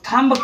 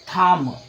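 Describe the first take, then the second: First: The word ends with an audible b sound. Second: The word ends on m with no b. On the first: The speaker calls it wrong. "तो आपका ये wrong होगा" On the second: The speaker calls it right. "ये आपका सही होगा"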